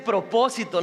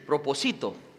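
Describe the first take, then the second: First: The stress is on the second syllable. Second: The stress is on the third syllable. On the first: The speaker calls it right. "Se dice propósito" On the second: The speaker calls it wrong. "Cuando le quitas el acento, se lee así"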